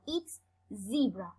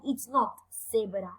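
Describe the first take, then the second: First: "zebra" as ZEE-bruh, slow and clear; teacher gives the right English "zebra", slowly; correct pronunciation. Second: "zebra" said Spanish style as sebera; teacher shows the mistake to avoid: Spanish "zebra"; wrong pronunciation. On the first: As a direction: model "zebra" with a long English ee. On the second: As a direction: mispronounce "zebra" with an s and a rolled r. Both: Shown as a demonstration.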